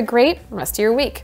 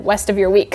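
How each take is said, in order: First: "rest" said carefully with a clear initial R; careful articulation. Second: "west" with a W in place of the R of "rest"; retold slip of the tongue. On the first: Real, not acted. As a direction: enunciate "rest of your week", keeping the R in "rest". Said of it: "I had to say that very slowly". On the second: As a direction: repeat the slip, starting "west" with a W sound. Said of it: "previously I said".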